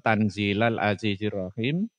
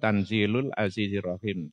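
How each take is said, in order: First: The first word ends with an a vowel. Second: The first word ends with a u vowel. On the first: It is the object of an unstated verb meaning recite. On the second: It is a predicate of an implied subject.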